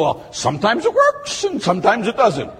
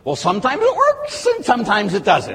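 First: Lightly voiced lukewarm believer, higher; a hint of a doubting churchgoer; mock shrugging doubter. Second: A lightly voiced doubting parishioner, higher; hammed-up lukewarm doubt; mock shrugging doubter. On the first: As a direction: toss the line off like you half believe it. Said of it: "You go". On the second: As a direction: shrug it off like a half-believer. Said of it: "what do you believe?".

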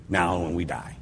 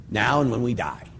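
First: Softer repetition of "now and when we die", said to let it sink in; quiet reflective echo. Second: Said in the usual way. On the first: Shown as a demonstration. Priest repeating the line to let it land, quiet and reflective. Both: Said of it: "And that's a great thing".

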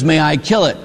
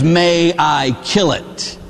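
First: Said in the usual way. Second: Each word spaced out deliberately; slow, insistent question. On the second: Retold or imitated. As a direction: ask it very slowly, pressing for an answer. Angel insists a third time.

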